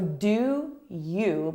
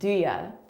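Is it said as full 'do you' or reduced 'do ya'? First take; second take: full; reduced. First: Both words are said fully as 'do you'. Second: The words are reduced and blended into 'do ya'.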